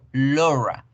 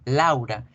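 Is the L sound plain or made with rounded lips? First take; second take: rounded; plain. First: The L is made with lips rounded like O. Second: The L is plain, with unrounded open lips. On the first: This is the English way. "en inglés yo debo redondear la boca" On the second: This is the Spanish way. "si en español yo decía Laura normal"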